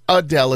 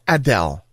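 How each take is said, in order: First: The first vowel is a reduced 'uh' sound. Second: The first vowel is an open 'ah' sound. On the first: The speaker calls it wrong. "It's not Adele" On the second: The speaker calls it right. "open up and say ah"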